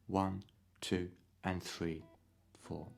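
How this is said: The 'and' comes slightly late after the beat.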